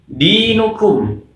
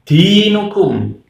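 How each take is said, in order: First: The d is voiced clearly without a puff of air. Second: The d is released with a puff of air. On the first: The speaker calls it right. "harus dibaca dengan jahar atau jelas" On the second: The speaker calls it wrong. "ada yang membaca dengan hembusan angin atau hamas"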